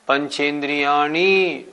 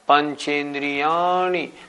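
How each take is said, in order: First: The syllable ya is not stressed. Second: The syllable ya is stressed. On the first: The speaker calls it wrong. "बहुत से लोग बोलते हैं" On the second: The speaker calls it right. "जोर देना है या पे"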